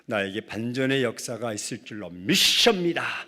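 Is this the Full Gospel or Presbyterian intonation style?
Full Gospel. It uses a Full Gospel church-style intonation. "순복음은 ... 억양이 달라요"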